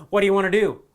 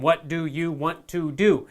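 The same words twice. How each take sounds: First: "What do you want to do?" quick and linked, "do you" reduced to "dya"; fast and run together, the way friends talk; relaxed spoken English. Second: "What do you want to do?" slow, with a full "do" and "you" and a clear "want to"; careful textbook English. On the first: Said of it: "and you didn't hear". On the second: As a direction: spell it out word by word. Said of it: "You learn". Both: Shown as a demonstration.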